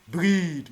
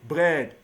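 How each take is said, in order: First: The vowel is a long ee sound. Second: The vowel is a short e sound. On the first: The speaker calls it wrong. "you told me E A is pronounced as uh, E" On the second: The speaker calls it right. "No. Bread"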